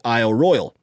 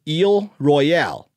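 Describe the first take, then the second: First: Both words are pronounced the English way. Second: Both words are pronounced the French way. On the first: "If you want to make it English" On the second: "If you want to make it French"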